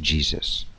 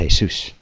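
First: The name is pronounced the English way. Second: The name is pronounced the Spanish way. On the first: "in Spanish, Jesus is not even pronounced Jesus" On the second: "It's pronounced Jesus, right? Hey, Zeus"

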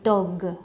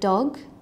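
First: An extra vowel syllable follows the final consonant. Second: The word ends cleanly on the final consonant. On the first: "they will say dog" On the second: "with the word dog"

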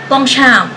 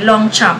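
First: The name is said in its original pronunciation. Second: The name is said in the local Filipino way. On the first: This is how the name is really pronounced. "sa totoong buhay, o yung totoo talaga" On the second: This is how Filipinos are used to saying it. "sa ating mga Pinoy"

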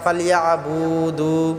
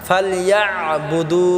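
First: The 'bu' and 'du' vowels are drawn out long. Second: The 'bu' and 'du' vowels are kept short. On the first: The speaker calls it wrong. "বু টান করি, দু টান করি" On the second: The speaker calls it right. "এখানে বু টান হবে না"

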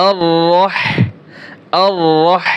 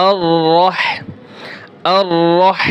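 No difference in how they are said.

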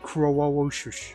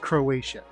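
First: The name is slurred into garbled sounds. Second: The name is said with clear, standard sounds. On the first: The speaker calls it wrong. "I said Croawoshush" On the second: The speaker calls it right. "No, it's Croatia"

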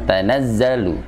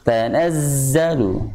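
First: The z is said without a whistling hiss. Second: The z is said with a whistling hiss. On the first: The speaker calls it wrong. "jangan tanazzalu" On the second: The speaker calls it right. "tapi harus tanazzalu ... Jadi ada bunyi sofirnya"

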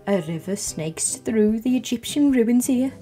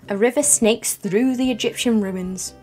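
First: It is said in a put-on voice. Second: It is said in a natural voice.

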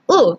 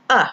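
First: The vowel is the Filipino letter sound. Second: The vowel is the English short sound. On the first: The speaker calls it wrong. "It's not U" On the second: The speaker calls it right. "it's A for umbrella"

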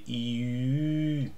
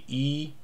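First: The vowel is said with rounded lips. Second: The vowel is said with spread lips. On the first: "but we say E. The mouth must be shaped as in for O" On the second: "Normal E would be E"

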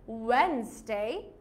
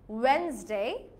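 The two takes are said the same way.

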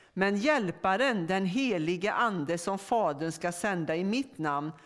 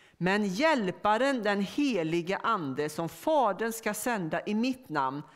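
Both takes have the same delivery.

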